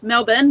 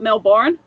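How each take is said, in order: First: It is said the Australian way. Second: It is said in a non-Australian way. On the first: The speaker calls it right. "that's how it's pronounced" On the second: The speaker calls it wrong. "not Melbourne"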